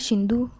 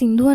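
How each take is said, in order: First: The name begins with an sh sound. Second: The name begins with an s sound. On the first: The speaker calls it wrong. "షింధు అనంటే ఎలా ఉంటది?" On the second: The speaker calls it right. "సింధు అనకుండా"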